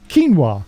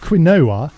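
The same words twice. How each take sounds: First: It is said keen-wah, unlike its letters. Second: It is said kwin-oh-ah, following its letters. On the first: "that it's pronounced quinoa" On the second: "when something is spelt quinoa"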